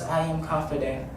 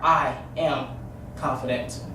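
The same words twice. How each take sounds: First: It sounds timid and unsure. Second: It sounds bold and sure.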